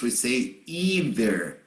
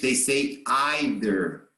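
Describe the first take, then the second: First: It is said with the American pronunciation. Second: It is said with the British pronunciation. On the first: "In American, Canadian English, we say either" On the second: "In British, British English, Irish English, Maltese English, Australian English, they say either"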